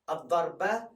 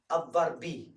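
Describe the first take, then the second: First: The word ends with an a vowel. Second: The word ends with an i vowel. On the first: "You don't say a, u, e" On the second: "You don't say a, u, e"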